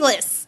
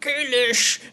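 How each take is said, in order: First: The name is said in a plain English style. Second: The name is said in a guttural Klingon style. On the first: The speaker calls it wrong. "and not like" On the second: The speaker calls it right. "the fact that it was like Kalish"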